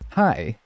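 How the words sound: The greeting sounds lighthearted and welcoming.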